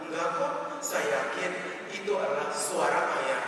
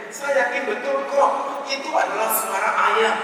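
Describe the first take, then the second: First: Softer, subdued protest; mildly wounded, quiet insistence; nearly tearful wife. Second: High-pitched, indignant wife; acted stubborn protest, pitched up; stamping insistence. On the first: Retold or imitated. Wife close to tears still contradicts husband, subdued hurt. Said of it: "hampir menangis dan berkata". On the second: Wife stamps her foot arguing with husband, indignant insistence. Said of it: "Sambil sang istri menghentakkan kakinya".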